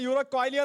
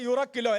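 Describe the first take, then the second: First: The middle has a 'kwai' sound before 'lio'. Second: The middle has a short 'ki' sound before 'lo'. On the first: The speaker calls it wrong. "ഞാനതിനെ യൂറോക്വൈലിയോ എന്നാ വായിച്ചേ" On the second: The speaker calls it right. "യൂറോക്കിലോ അല്ലേ"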